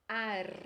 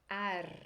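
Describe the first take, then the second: No difference in how they are said.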